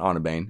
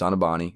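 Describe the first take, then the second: First: The name ends without a final vowel sound. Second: The name ends in a clear vowel sound. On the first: The Americanized form of the name. The speaker calls it wrong. "it's not Onabane" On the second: The original Italian form of the name. The speaker calls it right. "all Italian names end in a vowel sound"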